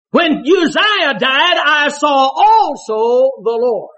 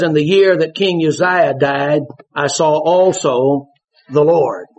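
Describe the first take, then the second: First: High, slow, "also" stretched out; emphatic stress on also. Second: "also" drawn out slow; stress on also. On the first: Preacher repeating the verse to the congregation, drawn out. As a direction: preach "I saw also the Lord" leaning hard on "also". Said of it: "I think he had his eyes on the king as well as God". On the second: Preacher dwelling on "also" for the congregation. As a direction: lean on "also" in "I saw also the Lord". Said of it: "Why did he say, "Also the Lord"?". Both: Shown as a demonstration.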